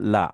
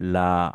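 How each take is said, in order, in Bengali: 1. স্বরধ্বনিটি হ্রস্ব, টেনে বলা হয় না। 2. স্বরধ্বনিটি টেনে বলা হয়, দীর্ঘ। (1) "লা মানে আছে" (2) "একটু যদি আমি টান দিয়ে বলি"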